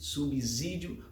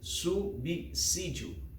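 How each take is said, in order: First: The middle consonant is a voiced Z sound. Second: The middle consonant is a voiceless S sound. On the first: The speaker calls it wrong. "não com de Z, subsídio, pois gramaticalmente está errada" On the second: The speaker calls it right. "se pronuncia subsídio com a letra com som de S"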